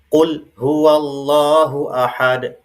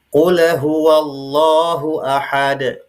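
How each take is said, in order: First: The l of qul is cut off abruptly. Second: The l of qul is bounced with an echo. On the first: "tidak boleh suara tercekat atau syiddah" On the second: "tidak boleh dibaca qalqalah atau pantul"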